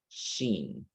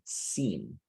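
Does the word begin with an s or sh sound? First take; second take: sh; s. First: The word begins with an sh sound. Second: The word begins with an s sound. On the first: The speaker calls it wrong. "sometimes your letter S sounds as S H" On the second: The speaker calls it right. "it's supposed to be seen"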